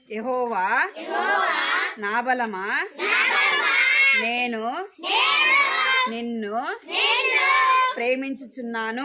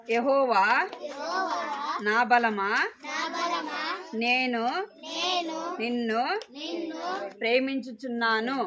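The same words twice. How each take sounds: First: యెహోవా, నా బలమా, నేను, నిన్ను called out loud, word by word with pauses; loud group recital. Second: యెహోవా, నా బలమా, నేను, నిన్ను, ప్రేమించుచున్నాను said one word at a time, with long pauses between; slow recitation, word by word. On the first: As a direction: call out యెహోవా నా బలమా so the whole class joins in. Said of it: "అందరు పలకాలి". (యెహోవా నా బలమా గట్టిగా పలకడం) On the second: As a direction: lead the children through యెహోవా నా బలమా, pausing after each word. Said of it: "మీరు పలకండి". (పదం పదం ఆపుతూ యెహోవా నా బలమా చదవడం) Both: Shown as a demonstration.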